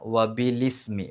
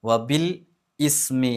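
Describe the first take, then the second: First: Bil and ismi run together without a break. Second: Bil and ismi are said as separate words. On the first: The speaker calls it right. "ബി കഴിഞ്ഞിട്ട് ലീ എന്നാ പറയേണ്ടത്" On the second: The speaker calls it wrong. "വബിൽ ഇസ്മി എന്നല്ല"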